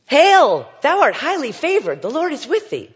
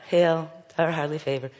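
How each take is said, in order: First: Much louder and higher, proclaiming; overwhelming heavenly announcement to a young woman; booming angel. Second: Said in the usual way. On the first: Shown as a demonstration. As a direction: thunder it like a towering angel. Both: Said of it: "Here's this young woman".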